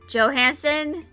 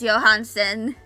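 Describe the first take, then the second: First: The name is said with an English pronunciation. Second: The name is said with a Nordic pronunciation. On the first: "some people pronounce it as" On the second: "because I know it's a Nordic name"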